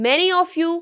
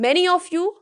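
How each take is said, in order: The two takes are said the same way.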